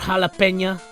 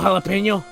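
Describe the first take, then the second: First: The word ends with an 'a' vowel. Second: The word ends with an 'o' vowel. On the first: The speaker calls it wrong. "some of the characters say jalapena, and it's like that's not how it's pronounced" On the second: The speaker calls it right. "I'm gonna call it jalapeno"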